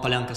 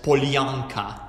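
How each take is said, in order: First: It is said with a native Russian accent. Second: It is said with an English accent, syllable by syllable.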